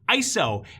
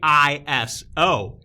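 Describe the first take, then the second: First: It is said as a single word. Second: It is said as three separate letters. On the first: "as in I S O is a word" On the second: "Some people say"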